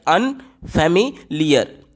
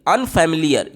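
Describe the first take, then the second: First: "अनफेमिलियर" broken as अन, फेमि, लियर; three separate beats. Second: Said in the usual way. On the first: Shown as a demonstration. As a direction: pause after each chunk of "अनफेमिलियर". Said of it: "तीन झटका हमें लग रहा है". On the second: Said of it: "अनफेमिलियर को बोल करके देखिए".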